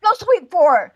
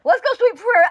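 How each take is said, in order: First: Hyped up. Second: Higher, louder hype rally cry; hyped up, louder. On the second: To the chat, rallying everyone to go over there, hyped up and loud. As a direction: pump the room up even more. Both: Acted. Hyping up going to the rival.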